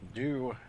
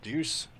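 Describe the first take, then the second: First: The word ends without an s sound. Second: The word ends with an s sound.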